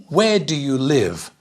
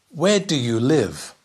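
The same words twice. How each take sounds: No difference in how they are said.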